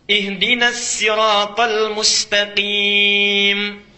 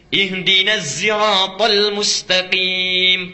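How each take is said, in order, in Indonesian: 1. Kata sirat diawali dengan S biasa. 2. Kata sirat diawali dengan bunyi Z. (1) "Ada bisa pakai sin, riwayat Qalun" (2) "pakai zai"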